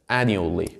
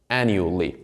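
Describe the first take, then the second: The two takes are said the same way.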